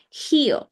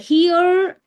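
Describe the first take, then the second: First: The final R is not sounded. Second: The final R is sounded softly. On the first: "so that's going to be British accent" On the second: "if you say that R softly, okay, so then it's American accent"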